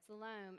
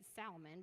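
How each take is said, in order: First: The name is pronounced as "Salom". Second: The name is pronounced as "Salmon". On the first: The speaker calls it right. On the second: The speaker calls it wrong.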